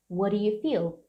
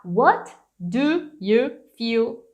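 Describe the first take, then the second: First: "What do you feel" flowing as "wha-ru you feel", softer; reduced linked form. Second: Very slow WHAT. DO. YOU. FEEL; over-articulated words. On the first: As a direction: run "What do you feel" together, tapping the D. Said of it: "fica muito mais fácil". ("What do you feel" ligado, mais suave) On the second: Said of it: "do que falar". ("What do you feel" palavra por palavra, bem lento) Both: Shown as a demonstration.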